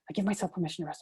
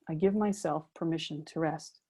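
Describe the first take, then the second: First: It is said rapidly, pounding like a jackhammer. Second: It is said slowly and calmly, with feeling.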